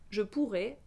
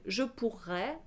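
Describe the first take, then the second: First: The final vowel is a closed E. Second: The final vowel is an open E. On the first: It is the future. "le futur se prononce avec un E fermé" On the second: It is the conditional. "c'est un E ouvert pour le conditionnel"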